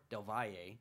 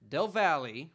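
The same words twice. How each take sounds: First: "Valle" with a y sound for the double L, ending in -ay; Spanish-style Del Valle. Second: "Valle" with a hard English L, ending in -ee; anglicized Del Valle. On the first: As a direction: say "Valle" as vai-yay. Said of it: "it's probably more Del Valle". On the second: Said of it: "probably, it's probably more Del Valle". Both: Shown as a demonstration.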